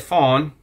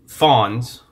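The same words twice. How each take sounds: First: The word gets a French pronunciation. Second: The word gets an English pronunciation. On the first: "les fonds" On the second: "or the fonds, as we might pronounce it"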